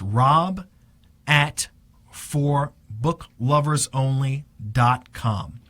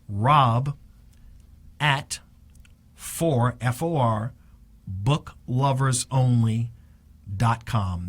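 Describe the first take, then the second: First: The address is said at a normal pace. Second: The address is said at a slower pace.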